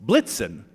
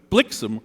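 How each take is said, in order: First: "Blitzen" said slowly with a hard ts sound; "Blitzen" as BLIT-sen, set against "blixen"; German version. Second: "blixen" as BLIK-sen, never BLIT-zen; Dutch pronunciation. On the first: Poet showing the jury the name that does not rhyme, Blitzen. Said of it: "Blitzen does not". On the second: Poet telling the jury the rhyming Dutch name, blixen. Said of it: "blixen rhymes with vixen". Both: Shown as a demonstration.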